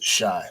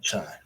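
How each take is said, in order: First: The word begins with a soft 'sh' sound. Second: The word begins with a hard 'ch' sound. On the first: The speaker calls it right. "it's shy" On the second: The speaker calls it wrong. "not chai"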